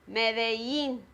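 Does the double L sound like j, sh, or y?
y. The double L sounds like a y. "the pronunciation is ya, like Medellin"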